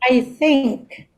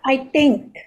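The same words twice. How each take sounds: First: Think begins with a soft th sound. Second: Think begins with a hard t sound. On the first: The speaker calls it right. "So you should have that sound" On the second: The speaker calls it wrong. "not I think"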